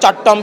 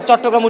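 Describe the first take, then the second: First: The middle 'gra' syllable is dropped. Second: The middle 'gra' syllable is fully pronounced. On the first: The speaker calls it wrong. "বলছে চট্টম বিশ্ববিদ্যালয়" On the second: The speaker calls it right. "চট্টগ্রাম উচ্চারণ করতে গিয়ে"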